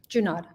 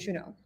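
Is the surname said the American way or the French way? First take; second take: American; French. First: The surname has an Americanized pronunciation. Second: The surname has its original French pronunciation. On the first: This is how the family says it now. "which one is the Americanized version?" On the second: This is how the name was said generations ago. "so many generations ago, it would have been"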